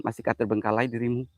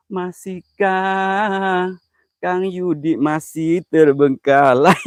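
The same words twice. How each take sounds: First: Said in the usual way. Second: Very slow, stretched syllables; slow mocking drawl at a viewer; drawn-out tease. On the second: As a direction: drag every word out teasingly. Teasing Kang Yudi on stream.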